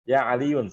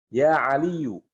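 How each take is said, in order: First: The name ends with an n sound. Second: The name ends on a vowel without n. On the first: The speaker calls it wrong. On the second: The speaker calls it right. "tidak boleh tanwin"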